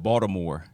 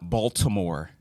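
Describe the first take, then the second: First: Said with a local Mid-Atlantic accent. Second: Said with a general non-local accent. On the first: The speaker is a real local. The speaker calls it right. "you said Baltimore" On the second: The speaker is an outsider. The speaker calls it wrong. "not Baltimore"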